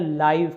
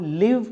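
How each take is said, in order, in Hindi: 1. स्वर लंबा है, यह 'five' से तुक मिलाता है। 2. स्वर छोटा है, यह 'give' से तुक मिलाता है। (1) "अगर हम इसको लाइव पढ़ते हैं तो ये एडजेक्टिव है" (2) "अगर हम इसको लिव पढ़ते हैं तो यह आपका वर्ब है"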